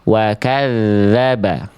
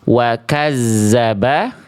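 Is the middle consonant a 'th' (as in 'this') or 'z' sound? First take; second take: th; z. First: The middle consonant is a 'th' as in 'this'. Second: The middle consonant is a buzzing 'z' sound. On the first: The speaker calls it right. "tapi kita baca" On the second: The speaker calls it wrong. "Jangan sampai kita baca"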